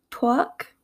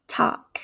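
First: "talk" with a rounded "twawk" vowel; East Coast pronunciation. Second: "talk" with an open "ah" vowel; Midwestern pronunciation. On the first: Teacher contrasting accents, "talk" said East Coast as "twawk". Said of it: "in an East Coast accent". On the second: Teacher contrasting accents, "talk" said Midwestern as "tahk". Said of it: "in my Midwestern accent". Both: Shown as a demonstration.

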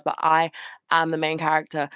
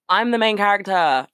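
First: "I am" leaned on firmly; stress on I am. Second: Higher and louder, proudly declaring; emphatic declaration. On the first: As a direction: plant the words "I am" with weight. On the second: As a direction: belt it out like a proud manifesto. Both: Real, not acted. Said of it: "I say this every single fucking podcast".

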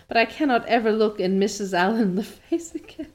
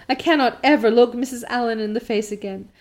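First: Reading through a laugh; laughter breaks into the line. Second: Said in the usual way. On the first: Real, not acted. Reader laughs mid-line at Anne's despair, laughing. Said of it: "I can't stop laughing". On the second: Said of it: "reread after laughing".

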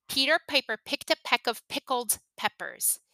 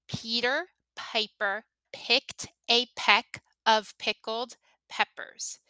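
First: Said in the usual way. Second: Slow, each word set apart; slow word-by-word demo. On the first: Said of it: "say them as fast as you can". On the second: Shown as a demonstration. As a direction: say the tongue twister slowly, pausing after each word. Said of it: "Listen to the sounds that I'm making".

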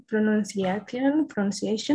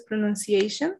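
First: Pronunciation said slowly and stumbling, Spanish-sounding syllables; old mispronunciation. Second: Pronunciation said smoothly as a native English word; correct pronunciation. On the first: Retold or imitated. Teacher imitating her old clumsy learner pronunciation, slow and stumbling. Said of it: "Y decía pronuncia". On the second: Shown as a demonstration. Teacher showing her friend how she says pronunciation now, correctly. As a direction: say pronunciation the right way, cleanly. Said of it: "Ya lo puedo decir bien".

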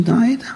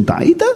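First: טעית rising a little less high; milder question. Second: טעית asked with a leap up high; mock question. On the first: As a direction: ask טעית with a gentler rise. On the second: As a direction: fling טעית up high in disbelief. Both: Shown as a demonstration. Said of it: "אני אגיד להשם".

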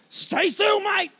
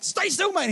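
First: Higher, urgent command as the dog closes in; urgent call to son. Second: Put-on raised, steady command to a child; firm call to son. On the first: Retold or imitated. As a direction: freeze him with an urgent call. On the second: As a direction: keep him frozen in place with a firm call. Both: Dad instructing son facing dog.

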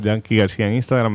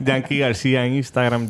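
First: Said in the usual way. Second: Laughing plug. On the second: Real, not acted.

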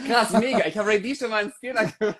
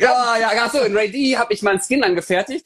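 First: Hoch, lachend, schnell; aufgeregt lachend. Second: Hoch und laut lachend; laut begeistert. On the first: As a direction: lacht überrascht los. Realizes he forgot, laughs. (aufgeregt und lachend) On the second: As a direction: verbessert sich laut lachend. Corrects himself loudly. (laut und begeistert) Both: Real, not acted.

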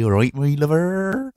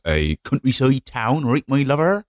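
First: Slow, slurred West Country farmer; drawn-out rural English, thick slurred R's; sleepy West Country. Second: Put-on Gloucestershire farmer accent; broad English countryside accent; West Country farmer. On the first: Shown as a demonstration. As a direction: draw it out in a sleepy countryside accent. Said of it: "I'll get a little bit sleepy". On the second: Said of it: "That's what they all sound like. They're all farmers".

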